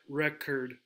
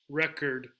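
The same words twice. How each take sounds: Both takes have the same delivery.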